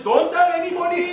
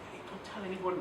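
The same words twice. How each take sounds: First: High, blaring mock warning; loud shout. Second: Hushed, confidential warning; secretive whisper. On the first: Trainer spoiling a secret for laughs, loud shout. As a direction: blurt the secret out at full volume. Contrast take to the whisper. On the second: Confiding a secret to someone, hushed whisper. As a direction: keep it very soft, just between two people. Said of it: "if you whisper something to someone". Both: Shown as a demonstration.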